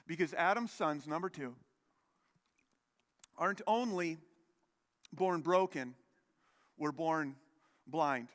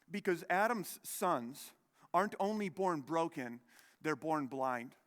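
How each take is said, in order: First: Each phrase set apart by long pauses, born blind landing heavy; slow and weighty, with long pauses. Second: Said in the usual way. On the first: Shown as a demonstration. Preacher repeats his second point to the brothers, slow and deliberate. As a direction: let every phrase hang before the next.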